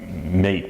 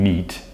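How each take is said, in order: First: The vowel rhymes with face. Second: The vowel rhymes with see. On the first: This is the old pronunciation. "meat was mate" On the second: This is the modern pronunciation. "became meat"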